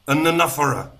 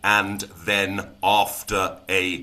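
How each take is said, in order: First: The words are squished together and reduced. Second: Each word is said fully and separately. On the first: The speaker calls it right. "They get shoved together" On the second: The speaker calls it wrong. "we are not saying"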